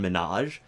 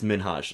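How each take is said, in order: First: The name is said with no H sound. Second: The name is said with a light H sound. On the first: The speaker calls it wrong. "people say well Hassan Minaj" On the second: The speaker calls it right. "it's Minhaj like there's an H there"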